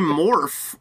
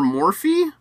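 First: The name has one syllable, ending in 'f'. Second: The name has two syllables, ending in 'ee'. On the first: It suits a cosmetics brand. "which makes more sense for a cosmetic company to me" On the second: It suggests a drug. "it sounds like morphine"

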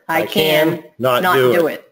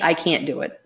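First: The word 'not' is said separately, apart. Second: The word 'not' is contracted into 'can't'. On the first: It sounds like a firm personal choice. The speaker calls it right. "Changing your tonality" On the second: It sounds like the task is impossible. The speaker calls it wrong. "So instead of I can't do it"

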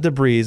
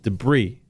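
First: The word ends with an audible s sound. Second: The word ends on a vowel, no s sound. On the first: The speaker calls it wrong. "It's not debris" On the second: The speaker calls it right. "It's debris"

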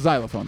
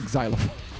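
First: The word begins with a plain z sound. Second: The word begins with an eks sound. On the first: The speaker calls it right. "it's xylophone, though" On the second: The speaker calls it wrong. "Not xylophone"

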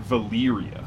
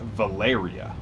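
First: The middle vowel is said as a Y. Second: The middle vowel is said as an E. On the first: The speaker calls it wrong. "Not Valeria" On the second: The speaker calls it right. "I pronounce that Valeria"

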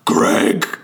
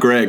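First: The name is said in a growling monster voice. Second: The name is said in a normal voice. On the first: The name is repeated to remember it. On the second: A person introduces himself.

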